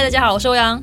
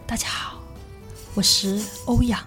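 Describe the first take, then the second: First: It is said in a plain, normal voice. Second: It is said in a soft, breathy voice.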